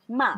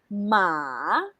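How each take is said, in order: First: It is said in the neutral tone, short and abrupt. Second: It is said in the third tone. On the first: "fifth tone. This is what we call the neutral tone. it's very abrupt" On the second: "using the third tone, just follow the direction of the intonation"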